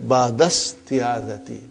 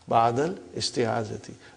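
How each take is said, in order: First: The words run together without the linking vowel. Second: The vowel opening the second word is clearly pronounced. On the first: This is how a fluent native speaker says it. "if you were to to study this from your childhood... your mother tongue is Arabic... so it will say" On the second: This is a simpler form for learners. "but for simplicity, I still feel that while we are learning"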